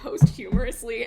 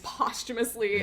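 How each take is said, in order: First: It is said following its spelling. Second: It is said unlike its spelling. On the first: The speaker calls it wrong. "it's spelled posthumously" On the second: The speaker calls it right. "it's not, it's posthumously"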